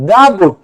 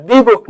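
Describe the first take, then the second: First: 'দা book' with a "daa" sound; 'দা' with an open ah vowel; correct article sound. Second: 'দি book' with a "dee" sound; 'দি' with a long ee vowel; wrong article sound. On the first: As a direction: say 'দা' as "daa" before book. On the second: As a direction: say 'দি' as "dee" before book, the rejected form. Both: Shown as a demonstration. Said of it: "এই beta consonant".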